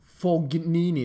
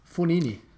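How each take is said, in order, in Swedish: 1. Ett hårt g-ljud hörs i mitten. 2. Inget hårt g-ljud hörs i mitten. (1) "det är alltså fel uttal" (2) "som man uttalar utan G"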